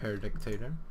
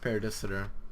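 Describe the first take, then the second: First: The middle of the word sounds like 'dict'. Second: The middle of the word sounds like 'dis'. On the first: The speaker calls it wrong. "it's not Paradictator" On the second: The speaker calls it right. "it's pronounced Paradisitor"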